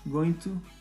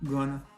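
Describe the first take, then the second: First: Both words are said fully and separately. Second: The words are blended into one short word.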